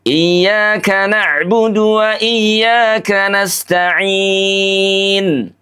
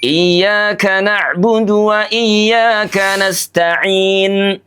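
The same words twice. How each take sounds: First: The final long vowel is held moderately long. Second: The final long vowel is held briefly. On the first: "Kalau empat harokat" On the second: "Dua harokat"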